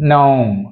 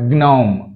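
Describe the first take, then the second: Both takes have the same delivery.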